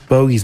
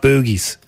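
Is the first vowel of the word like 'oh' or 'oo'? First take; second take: oh; oo. First: The first vowel sounds like 'oh'. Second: The first vowel sounds like 'oo'. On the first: The speaker calls it right. "It's Bo as in bogies" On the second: The speaker calls it wrong. "not boogies"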